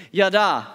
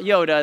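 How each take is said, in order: First: "Yada" said YAH-dah, both vowels as in father; "Yada" with open ah sounds, not Yoda; Hebrew yada. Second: "Yoda" with a long O, like the green character; "Yoda" said YOH-dah, the wrong word. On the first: Pastor teaching the Hebrew word, YAH-dah with open vowels. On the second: Pastor contrasting the Star Wars name, YOH-dah. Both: Shown as a demonstration. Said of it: "That's not Yoda".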